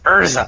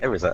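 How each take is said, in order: First: The name begins with an 'ur' vowel. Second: The name begins with an 'eh' vowel. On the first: "look, it's Urza. And I'm like, huh?" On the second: "the E is like eh"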